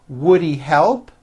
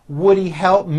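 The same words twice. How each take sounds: No difference in how they are said.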